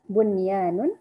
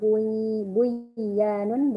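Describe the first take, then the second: First: The n is pronounced clearly before the y. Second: The n merges into the following y sound. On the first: The speaker calls it right. "tapi bacanya tetap seperti izhar" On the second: The speaker calls it wrong. "atau buyanun bukan gitu"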